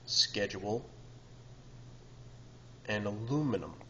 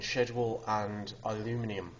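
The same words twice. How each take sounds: First: It is said in an American accent. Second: It is said in a Manchester English accent.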